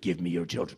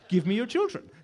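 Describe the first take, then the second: First: It is said in an odd, put-on voice. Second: It is said in an ordinary speaking voice. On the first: The speaker calls it wrong. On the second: The speaker calls it right.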